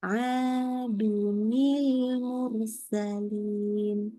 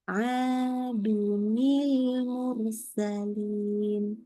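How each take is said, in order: First: A linking ni sound joins the two words. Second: A linking ni sound joins the two words.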